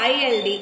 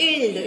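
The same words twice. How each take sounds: First: I L D said letter by letter; name each letter of I L D separately; spelled out. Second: "ild" blended into one sound; pronounced together. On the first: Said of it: "pronounced these two letters separately". (I L D అక్షరాలను విడివిడిగా పలకడం) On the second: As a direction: run the letters of "ild" together as one ending. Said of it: "It is pronounced together". ("ild" ని కలిపి ఒకే శబ్దంగా పలకడం) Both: Shown as a demonstration.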